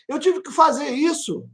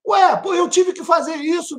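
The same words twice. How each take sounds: First: Said in the usual way. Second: High shouted insistence; emphatic shout. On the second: Real, not acted. Pregador enfatiza o testemunho. (grito enfático e agudo)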